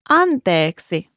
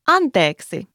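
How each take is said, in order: First: The word is said slowly and drawn out. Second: The word is said at normal conversational speed. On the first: "Could you say that word one more time slowly?" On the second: "And one more time at regular speed?"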